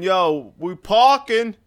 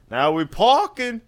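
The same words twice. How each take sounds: First: High, loud slang voice; lazy slang guy. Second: High, loud slang voice; clipped street slang call; lazy slang guy. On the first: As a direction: bark it like a street guy. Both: Retold or imitated. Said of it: "It's like".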